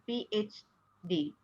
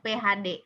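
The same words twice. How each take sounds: First: The letters are named the English way. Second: The letters are named the Indonesian way. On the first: The speaker calls it wrong. "bukan P H D" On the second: The speaker calls it right. "melafalkannya P H D"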